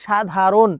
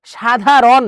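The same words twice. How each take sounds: First: সাধারণ ending in closed "ron", "sha-dha-ron"; usual closed ending. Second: সাধারণ ending in open "rawn", "sha-dha-rawn"; wrong open ending. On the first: Teacher showing how learners normally say it, closed-ended সাধারণ. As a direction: say সাধারণ with a closed "o" in the last syllable. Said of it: "তুমি বলো কি সাধারণ". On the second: Teacher showing what learners don't say, open-ended সাধারণ. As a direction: sound out সাধারণ with a loud open last vowel. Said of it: "সাধারণ তো তুমি বলো না". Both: Shown as a demonstration.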